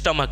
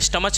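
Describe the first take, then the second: First: The word ends with a 'k' sound. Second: The word ends with a 'ch' sound. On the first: The speaker calls it right. "इसको बोलता है स्टमक" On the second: The speaker calls it wrong. "स्टमच नहीं ना बोलते इसको"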